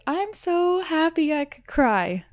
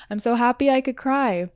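First: High, drawn-out gush of happiness; blissful, stretched-out exclamation; overjoyed. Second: Said in the usual way. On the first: Retold or imitated. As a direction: gush it slowly, pitched way up. Acting out her overjoyed thought.

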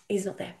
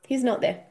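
First: Monotone voice. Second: Laughing. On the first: Shown as a demonstration. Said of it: "when I say a monotone voice". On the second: Retold or imitated. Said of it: "in a monotone voice".

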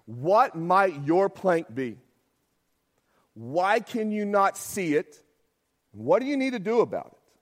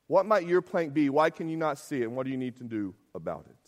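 First: Slow reflective questions. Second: Said in the usual way. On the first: Shown as a demonstration. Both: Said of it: "mid-sermon application".

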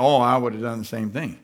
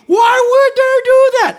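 First: Sheepish. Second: High, loud indignant outcry; cocky outraged shout. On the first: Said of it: "now all of a sudden you're like". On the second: Preacher mocking a self-righteous gossip, loud indignant shout. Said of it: "yesterday you were all cocky". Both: Retold or imitated.

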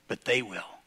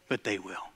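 First: Soft and low; hushed aside. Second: Even softer, lower repeat; fading echo. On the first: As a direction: let it sink in quietly. Hushed echo. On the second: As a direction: let it die away. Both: Acted.

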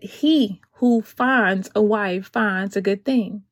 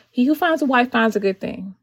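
First: Slow, weighty verse reading; solemn slow scripture quote. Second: Said in the usual way. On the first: Acted. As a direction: read the verse slowly like from the pulpit. Quoting scripture to the ladies.

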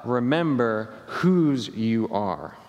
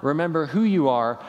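First: "remember whose you are" slow, leaning on "whose"; stress on whose. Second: "remember who you are" said as the rejected line; preacher sets up the old line before correcting it; the wrong version. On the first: Pastor giving the congregation the better words, slow, stressing "whose". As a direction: land the corrected word "whose" slowly. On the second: Pastor quoting the line he will correct, stress on "you". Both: Shown as a demonstration.

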